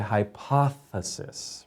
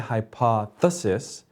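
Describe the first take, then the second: First: The th sound is long and held steady. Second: The th sound is short, like a t. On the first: The speaker calls it right. "We say hypothesis" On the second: The speaker calls it wrong. "we don't say hypothesis, because then that sounds like a D or a T"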